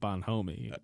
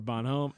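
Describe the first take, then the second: First: The name ends with an extra 'ee' syllable. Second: The name ends without an extra final syllable. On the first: The speaker calls it wrong. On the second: The speaker calls it right.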